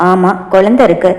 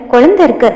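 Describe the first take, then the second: First: Husband teasingly mimicking his wife's protest; teasing echo. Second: Raised voice. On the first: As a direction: lower man's voice, குழந்தை repeated lazily and teasing. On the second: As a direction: lightly raise the voice on குழந்தை இருக்கு. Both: A narrator's reading. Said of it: "Pavithra குரலை உயர்த்தி சொல்ல".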